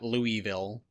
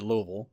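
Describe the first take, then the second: First: It is said an outsider's way. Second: It is said the local Kentucky way. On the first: This is how people from elsewhere say it. The speaker calls it wrong. "it's not Louisville or Louisville" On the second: This is how people from there say it. The speaker calls it right. "we do pronounce it Louisville here"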